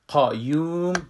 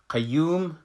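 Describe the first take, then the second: First: The first syllable has a heavy, full q sound. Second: The first syllable has a light, thin q sound. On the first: This is how it is read in Arabic. "در عربی ... قاف از جمله حروف مفخم است" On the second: This is how it is read in Persian. "ما در فارسی را میخوانیم قیوم"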